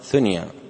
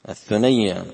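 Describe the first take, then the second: First: The word is said as two syllables, thun-ya. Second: The word is said with doubled y, thu-nay-ya. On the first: This is how it is commonly said. "نحن ننطقها الثنيا" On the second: This follows the form given in the book. "على وزن ثريا"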